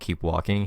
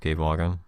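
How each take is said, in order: First: It is said clearly in a normal voice. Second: It is said as a quiet, hushed mumble. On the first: "instead of keep walking" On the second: "a hushed kind of mumble"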